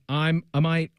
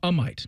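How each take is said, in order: First: The name sounds like 'I'm a might'. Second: The name sounds like 'a might'. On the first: The speaker calls it wrong. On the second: The speaker calls it right. "is how you say it"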